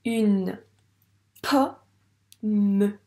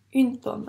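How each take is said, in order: First: "Une pomme" loud, stretched, with pauses between pieces; sounding out slowly. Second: Said in the usual way. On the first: Shown as a demonstration. Teacher decoding for a pupil, "Une pomme" syllable by syllable. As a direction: hold "Une", pause, then split "pomme" into po-mme. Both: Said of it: "À toi de lire ce mot".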